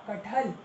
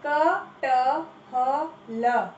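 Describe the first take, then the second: First: Said in the usual way. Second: कटहल drawn out as a-ta-ha-la; syllable by syllable. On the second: Shown as a demonstration. Teacher sounding out कटहल for the class. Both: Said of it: "सही उच्चारण करो".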